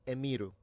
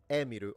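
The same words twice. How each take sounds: First: The name is said in a less Japanese way. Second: The name is said in a more Japanese way. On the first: The speaker calls it wrong. "you're all saying no" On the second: The speaker calls it right. "Kind of more Japanese sounding then"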